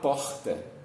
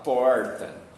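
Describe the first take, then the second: First: It is said with a Rio de Janeiro accent. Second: It is said with an inland São Paulo accent. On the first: "se eu sou do Rio de Janeiro, eu vou falar porta" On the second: "Se eu sou do interior de São Paulo, eu vou falar porta"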